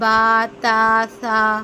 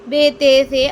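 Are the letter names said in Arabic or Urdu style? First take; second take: Arabic; Urdu. First: The letters end in an Arabic-style 'a' vowel. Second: The letters end in an Urdu-style 'e' vowel. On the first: The speaker calls it right. "अरबी लबो लहजे में किस तरह अदा करेंगे?" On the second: The speaker calls it wrong. "Urdu के लहजे में हम किस तरह अदा करते थे?"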